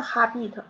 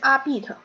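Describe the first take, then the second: First: The word starts with an audible h sound. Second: The word starts directly with a vowel sound. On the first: The speaker calls it wrong. "不是ha bit" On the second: The speaker calls it right. "是a bit"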